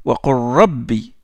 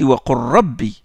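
No difference in how they are said.

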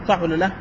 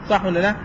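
No difference in how they are said.

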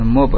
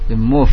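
First: It ends in a stopped b sound. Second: It ends in a soft, breathy f sound. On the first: The speaker calls it wrong. "bukan mub" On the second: The speaker calls it right. "sehingga fa bukan huruf qalqalah"

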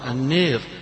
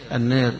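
First: The long vowel leans strongly toward 'ee'. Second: The long vowel leans slightly toward 'ee'. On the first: "يقرأها البعض بالإمالة" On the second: "بالتقليل فيها"

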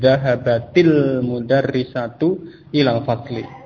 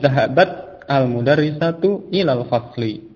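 First: Zahabat runs into the next word as zahabatil. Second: Zahabat ends separately before the next word.

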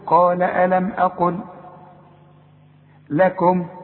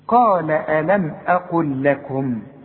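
First: There is a stop after each word. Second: The words run together without pauses. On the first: "أنا عايز أقف على كل كلمة" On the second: "إذا وصلت الكلام"

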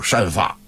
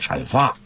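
First: The first syllable begins with a 'sh' sound. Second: The first syllable begins with a 'ch' sound. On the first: The speaker calls it wrong. "老北京人一般都读善" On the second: The speaker calls it right. "这个正确的发音是阐述和阐发"

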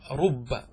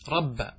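First: The vowel after the r is u. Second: The vowel after the r is a. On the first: "ضم الراء" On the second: "ويجوز فتحها"

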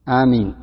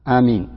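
First: The first vowel is short and the m single. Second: The first vowel is short and the m single.

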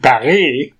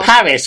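First: Paris is pronounced with a French accent. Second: Paris is pronounced with an English accent. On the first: The speaker calls it wrong. "We don't say" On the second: The speaker calls it right. "we pronounce it in English"

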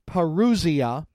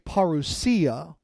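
First: The word is pronounced in the usual English way. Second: The word is pronounced in the Greek way. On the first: "You most often will hear it pronounced parousia" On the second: "keeping the Greek pronunciation, will say parousia"

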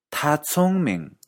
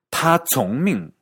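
First: The tones form the phrase meaning he is clever. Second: The tones form the phrase meaning he obeys orders. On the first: He is intelligent. "Podrías estar tratando de decir él es inteligente" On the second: He follows orders. "terminar diciendo él sigue órdenes"

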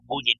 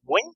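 First: The surname is said with two syllables. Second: The surname is said as one short syllable. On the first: This is how some regions say it. "hay algunas partes donde lo dicen como Guggen" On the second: This is how it is said in Vietnam. "Los vietnamitas lo dicen como Gwen"

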